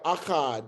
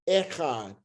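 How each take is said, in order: First: The first vowel is an 'a' sound. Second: The first vowel is an 'e' sound. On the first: "but you have Akkad" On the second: "some people say Echad because this here's e"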